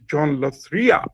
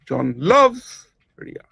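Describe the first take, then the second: First: The stress falls on the word Ria. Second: The stress falls on the word loves. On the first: "the third way of speaking the same sentence" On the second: "The second example"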